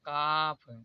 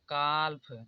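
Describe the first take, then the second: First: The L sound is silent. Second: The L sound is pronounced. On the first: The speaker calls it right. "इसे पढ़ा जाएगा काफ" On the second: The speaker calls it wrong. "आप लोग नहीं जानते होंगे तो इसे पढ़ते होंगे"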